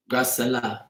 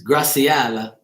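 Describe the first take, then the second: First: Graciela squeezed to three syllables, gra-suh-LA; softer Graciela with the middle reduced; alternative pronunciation. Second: Graciela said slowly with a clear "see-AH" in the middle; careful Graciela, every syllable given; name sounded out. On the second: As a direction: stretch Graciela into four syllables, gra-see-AH-la. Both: Shown as a demonstration. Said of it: "so many ways to say a name".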